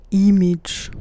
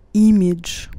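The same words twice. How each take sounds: The two takes are said the same way.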